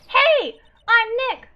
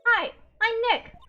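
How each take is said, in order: First: It is said loudly. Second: It is said fairly quietly.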